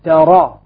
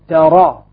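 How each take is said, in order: First: The vowel after r is an open a. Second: The same.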